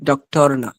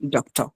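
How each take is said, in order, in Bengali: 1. দ্বিতীয় সিলেবলে 'r' ধ্বনিটি উচ্চারিত হয়। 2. দ্বিতীয় সিলেবলে 'r' ধ্বনিটি উচ্চারিত হয় না। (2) "আর এর উচ্চারণ হয় না"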